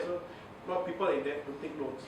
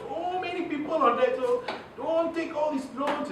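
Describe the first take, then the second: First: Said in the usual way. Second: High, emphatic "So many", stretched "don't take"; stressed, pressing. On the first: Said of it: "you don't feel something". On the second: Shown as a demonstration. Warning radio listeners about debt, high and stressed. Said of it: "So you have to stress".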